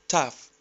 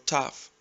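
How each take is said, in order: No difference in how they are said.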